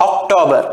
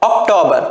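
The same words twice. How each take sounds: No difference in how they are said.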